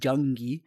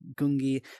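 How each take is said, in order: First: The word starts with a j sound. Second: The word starts with a hard g sound.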